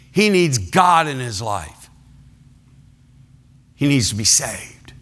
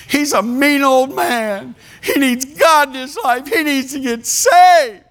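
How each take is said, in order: First: Lightly voiced wife, near his own pitch, falling; same plea again, worn and flat; a hint of a weary wife asking for prayer; Joy's tired repeat. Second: Lightly voiced church lady, higher, pleading; a hint of an earnest wife's high plea; Joy's urgent plea. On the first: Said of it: "I need someone to pray for my husband". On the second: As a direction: mimic Joy begging the church to pray. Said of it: "She stood and she said".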